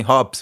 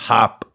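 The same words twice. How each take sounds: First: "hops" said with a round Desi o, like beer hops. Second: "hop" said the American way, like "hap"; Western hop. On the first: Showing the Desi way, "hops" with a round o. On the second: Mocking the Western rap word, saying "hop" like "hap". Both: Shown as a demonstration. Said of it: "We don't say hop".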